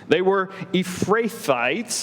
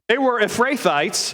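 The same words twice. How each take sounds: First: The name is said tentatively and uncertainly. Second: The name is said loudly and confidently. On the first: The speaker is unsure how to say it. "if I'm saying that right" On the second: The speaker sounds as if he knows the word. "just say the word loud and proud"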